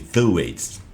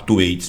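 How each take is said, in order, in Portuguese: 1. O nome é dito com sons do inglês. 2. O nome é dito com sons de estilo português. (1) "que em inglês seria o som de Thwaites" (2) "Eu vou falar Thwaites mesmo para ficar mais fácil"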